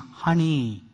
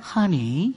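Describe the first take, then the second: First: It is said in a changed, stern tone. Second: It is said in the old, sweet tone.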